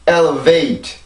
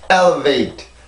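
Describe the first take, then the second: First: The last syllable carries a stronger secondary stress. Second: The last syllable is weak and unstressed. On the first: The speaker calls it right. "지금 강세가 그 이거보다는 높은 강세란 말이에요" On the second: The speaker calls it wrong. "순수 음절이라고 본다면 이렇게 발음이 되겠죠"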